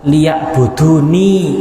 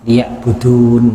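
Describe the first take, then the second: First: The word ends with an i vowel after n. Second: The word ends on the n with no vowel. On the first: This is the full original form of the word. "hukum asalnya itu adalah liya'buduni" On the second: This is the lightened reading of the word. "bacaannya dibaca ringan"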